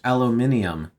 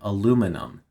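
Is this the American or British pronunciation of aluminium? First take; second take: British; American. First: It is said the British way, five syllables. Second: It is said the American way, four syllables. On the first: "British aluminium" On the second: "American aluminum"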